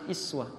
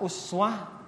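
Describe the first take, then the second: First: The word begins with an 'i' vowel. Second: The word begins with an 'u' vowel. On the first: "bisa iswa" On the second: "satu kalimat ini uswa bisa dibaca dengan dua cara. Bisa uswa"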